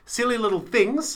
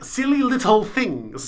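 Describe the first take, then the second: First: The phrase is fast with slurred, soft T sounds. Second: The phrase is careful with hard, crisp T sounds. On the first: The speaker calls it wrong. "I said it a bit fast and it sounded almost like slurred" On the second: The speaker calls it right. "hit the T"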